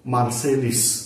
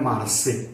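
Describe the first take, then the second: First: The name ends with an added s sound. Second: The name ends on a vowel, with no s. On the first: This is how local speakers say it. The speaker calls it wrong. "आम्ही बोलतो मार्सेलिस" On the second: This is how French speakers say it. The speaker calls it right. "त्याचा फ्रेंच उच्चार आहे मार्से"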